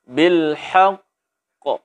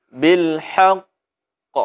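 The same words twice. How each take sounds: No difference in how they are said.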